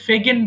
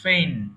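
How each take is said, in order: First: A hard g sound is heard mid-word. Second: No g sound; it rhymes with rain. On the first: The speaker calls it wrong. "অনেকে ভুল করে ফেগেন বলে" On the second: The speaker calls it right. "আমি বাংলা লিখে দিয়েছি ফেইন"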